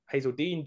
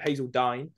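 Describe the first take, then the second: First: Hazeldine ending like "deen"; unsure try at Hazeldine, rhyming the end with "seen"; alternative pronunciation. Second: Hazeldine ending like "dine"; unsure try at Hazeldine, rhyming the end with "nine"; alternative pronunciation. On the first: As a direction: say Hazeldine with an EE, as HAY-zel-deen. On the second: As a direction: say Hazeldine with a long I, as HAY-zel-dyne. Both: Shown as a demonstration. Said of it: "Dine, I don't know".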